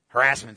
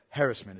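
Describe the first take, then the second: First: It is said with a plain, folksy stress pattern. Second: It is said with a refined, educated stress pattern. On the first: The speaker is uneducated. "Harassment's for a hick" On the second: The speaker is educated. "Harassment is for the educated"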